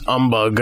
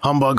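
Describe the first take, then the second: First: It is said British-style, dropping the H. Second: It starts with an H sound.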